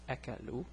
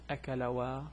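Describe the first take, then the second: First: The word ends on a plain 'u' sound. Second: The word ends with an extra 'wa' sound. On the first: The speaker calls it right. "No, it's akalu" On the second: The speaker calls it wrong. "so it's not akalawa"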